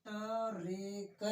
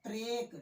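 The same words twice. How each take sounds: First: टरेक stretched slowly into separate syllables; slow broken syllables. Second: Said in the usual way. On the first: Shown as a demonstration. Teacher slowing the word down to show the half ट. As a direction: pull टरेक apart very slowly. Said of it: "यानी ट आधा".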